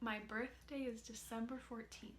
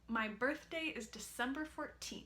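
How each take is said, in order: First: The consonants are touched very lightly. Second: The consonants are pressed with firm contact. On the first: The speaker calls it right. "adding in those light contacts ... That felt smoother" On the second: The speaker calls it wrong. "take the strategy away ... that felt tougher there"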